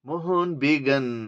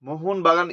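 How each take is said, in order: First: The second word's first vowel sounds like 'e'. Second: The second word's first vowel sounds like 'a'. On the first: The speaker calls it wrong. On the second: The speaker calls it right.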